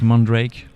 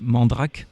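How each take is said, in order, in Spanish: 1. El nombre se pronuncia a la inglesa. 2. El nombre se pronuncia a la francesa. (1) "like if it was English, like Mandrake, with the French accent" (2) "I think the real French will be Mandrake"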